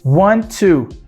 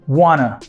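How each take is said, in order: First: Both words are said fully and separately. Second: The words blend into one reduced form.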